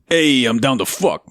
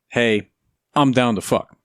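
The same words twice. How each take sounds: First: It is said in a put-on New York accent. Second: It is said in the speaker's ordinary accent.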